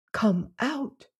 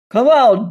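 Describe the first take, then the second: First: Soft, high, lisped near-whisper; lisping whisper. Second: Big booming bellow through the door; bellowing call. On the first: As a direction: hush it with a lisp, frightened. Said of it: "her voice lisped into a whisper". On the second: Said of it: "he called in his big bellowing voice". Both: Acted.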